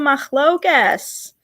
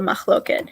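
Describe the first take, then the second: First: The word ends with an s sound. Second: The word ends with a t sound. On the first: The speaker calls it wrong. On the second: It follows the modern Israeli pronunciation. The speaker calls it right.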